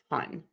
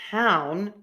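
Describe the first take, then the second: First: The vowel is a short flat uh sound. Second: The vowel is long and glides with mouth movement. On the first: The speaker calls it wrong. "and ton" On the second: The speaker calls it right. "instead of saying ... town"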